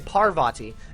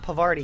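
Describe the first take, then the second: First: The r sound comes before the v. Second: The r sound comes after the v. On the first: The speaker calls it right. "I should say Parvati" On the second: The speaker calls it wrong. "not Pavarti, because that sounds like a cheese"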